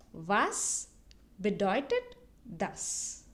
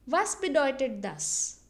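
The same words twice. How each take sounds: First: Slow, separated "Was", "bedeutet", "das"; slow model phrase. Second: Said in the usual way. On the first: Shown as a demonstration. Teacher repeats the question for learners, slowly word by word. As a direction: leave a pause after each word of "Was bedeutet das". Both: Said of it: "repeat it twice so that you can listen".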